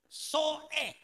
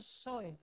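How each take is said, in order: First: The vowels are split by a short glottal catch. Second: The vowels run together without any catch. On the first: The speaker calls it right. "Sebutannya mesti jelas. Ada koma sedikit di atas" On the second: The speaker calls it wrong. "Jangan bilang soe"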